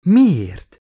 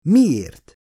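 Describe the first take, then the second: First: A sharp, loud, high disbelieving cry; incredulous. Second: Said in the usual way. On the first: A narrator's reading. Stunned doctor cries out her question at the android, loud with disbelief. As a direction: blurt it out in shock. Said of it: "képett el Elizabeth hitetlenkedve".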